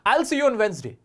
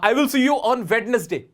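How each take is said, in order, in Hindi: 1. Wednesday दो syllables में बोला जाता है, बिना d के। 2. Wednesday में d और बीच का syllable बोला जाता है। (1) "वेंसडे होता है।" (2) "एडवांस लेवल पे जब आप पहुंचते हो तो आपका प्रोनाउंसिएशन ये वाला नहीं होता।"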